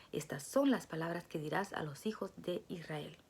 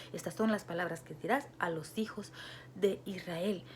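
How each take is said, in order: The two takes are said the same way.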